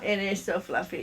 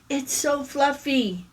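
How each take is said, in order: First: It is said in the speaker's normal voice. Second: It is said in a little girl's voice.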